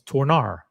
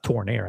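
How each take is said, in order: First: The last syllable sounds like 'ar'. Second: The last syllable sounds like 'air'. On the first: The speaker calls it right. "I think it's Tornar" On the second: The speaker calls it wrong. "it's not Tornair"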